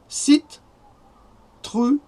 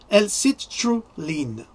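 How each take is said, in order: First: It is pronounced with French sounds. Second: It is pronounced with English sounds. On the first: "ça se prononce L, comme le L, citruline" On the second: "je l'ai dit en anglais, pour les anglophones"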